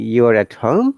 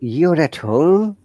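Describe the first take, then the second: First: It sounds like a question. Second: It sounds surprised. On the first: The speaker is not sure and is asking. "from the tone you can understand it's a question" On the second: The speaker did not expect it. "that is surprise"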